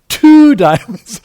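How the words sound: It is said with a marked, expressive inflection. It hints extra information to the partner. The speaker calls it wrong. "we should not use an inflection like two diamonds"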